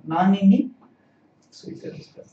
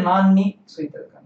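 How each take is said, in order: First: "nani ni" with the i sounded before ni; NANI in full. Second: "nan ni" with nani cut down to nan; shortened NAN. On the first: Teacher correcting the student's question, nani said in full. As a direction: say all of "nani ni", three separate syllables. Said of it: "say it as nani ni". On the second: Teacher showing the student the form not to say, nani shortened to nan. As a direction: say "nan ni", no i between the n sounds. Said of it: "You can't say". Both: Shown as a demonstration.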